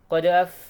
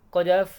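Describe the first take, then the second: Both takes have the same delivery.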